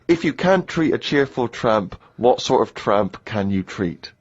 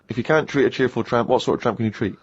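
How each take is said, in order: First: It is read out at a normal pace. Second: It is said quickly as a tongue twister.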